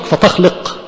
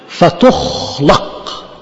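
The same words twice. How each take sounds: First: The verb has active vowels, fa-takhluq. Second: The verb has passive vowels, fa-tukhlaq. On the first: The one addressed is the one who creates. The speaker calls it wrong. "يبقى انت اللي بتخلق" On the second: Things are created when the spirit is sent. The speaker calls it right. "يبقى الحاجات بتخلق لما انت تبعت الروح بتاعتك"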